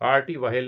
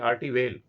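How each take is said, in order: First: The second word has an audible h after v. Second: The second word has no h after v. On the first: The speaker calls it wrong. "Arty वहेल नहीं" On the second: The speaker calls it right.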